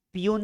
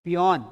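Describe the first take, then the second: First: पियून with a long oo, "pee-YOON"; mispronounced पियून, "oo" vowel at the end; wrong reading of peon. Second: पियोन with an open o, "pee-YON"; पियोन, "aw" vowel before the n; taught reading of peon. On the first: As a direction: say पियून, second syllable rhyming with "moon". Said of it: "पियून नहीं पढ़ते हैं". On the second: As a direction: say पियोन, second syllable rhyming with "on". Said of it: "क्या पढ़ते हैं". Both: Shown as a demonstration.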